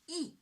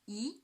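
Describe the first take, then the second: First: The pitch falls sharply from high to low. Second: The pitch rises from middle to high. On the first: "the fourth tone, from five to one, ... short and strong" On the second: "the second tone. From three to five"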